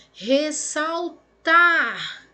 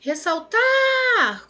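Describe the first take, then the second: First: RESSALTAR slowly split, landing on TAR; stress on last syllable. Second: RESSALTAR called out with TAR long, high and loud; calling the word. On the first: Teacher shows pupils an oxytone, slow syllable stress. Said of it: "A última sílaba é a mais forte". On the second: Teacher calls the word to find its stress, calling out. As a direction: call "Ressaltar" as if summoning it, holding TAR. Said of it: "Chama que vem". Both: Shown as a demonstration.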